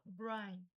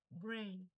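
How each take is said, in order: First: "brain" misread as "brine"; wrong pronunciation. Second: "brain" with an "ay" vowel; correct pronunciation. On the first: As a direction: say "brain" with an "eye" vowel. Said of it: "Você vai falar brain". ("brain" errado, lido como "brain" em português) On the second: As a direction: say "brain" as "brein". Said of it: "É brain". ("brain" correto, com som de "ei") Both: Shown as a demonstration.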